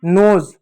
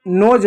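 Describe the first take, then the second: First: नोज ending in buzzing z, "noze"; correct z ending. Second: नोज ending in English J, "noj"; wrong j ending. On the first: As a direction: close नोज on an English Z. (नोज़ के अंत में ज़) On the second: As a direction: close नोज on a j, no buzz. (नोज के अंत में ज) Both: Shown as a demonstration. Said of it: "नोज नहीं".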